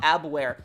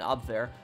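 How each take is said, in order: First: The word is pronounced the English way. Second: The word is pronounced the German way.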